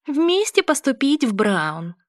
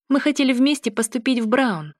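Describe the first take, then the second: First: High, slow squeaky mimicry; squeaky mocking voice. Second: Said in the usual way. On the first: A narrator's reading. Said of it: "писклявым голосом передразнивает меня Грейс". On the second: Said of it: "возражаю я".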